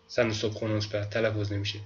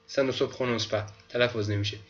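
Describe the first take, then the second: No difference in how they are said.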